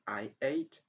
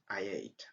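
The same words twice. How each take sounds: First: The two words are said without a linking y. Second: A y sound links the two words together. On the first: The speaker calls it wrong. "Instead of saying" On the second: The speaker calls it right. "the best way is"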